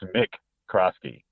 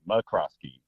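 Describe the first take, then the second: First: The first syllable is a full 'mick'. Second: The first syllable is reduced to a short 'muh'. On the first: This is how the name properly is. "even though it is Mick Crosky" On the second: This is the speaker's habitual way of saying it. "I also say McCroskey"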